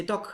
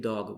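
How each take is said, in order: First: "Dog" ending in a hard k, like "dock"; German final devoicing. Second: "dog" ending in a voiced g; English final G. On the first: Teacher showing how Germans say dog, devoiced ending. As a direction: say "Dog" raised, with a voiceless k at the end. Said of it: "if Germans speak English and they say dog". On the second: Teacher showing how English says dog, voiced final g. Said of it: "you would say dog with a G". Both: Shown as a demonstration.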